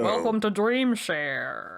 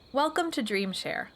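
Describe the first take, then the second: First: It is said in a put-on radio voice. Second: It is said in her normal speaking voice.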